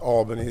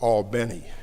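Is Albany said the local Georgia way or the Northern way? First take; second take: Northern; local Georgia. First: Albany is said the familiar Northern way. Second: Albany is said the local Georgia way. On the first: This is the name as people up north know it. "not Albany as we know it" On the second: This is how the people there say the name. "they call it Albany there"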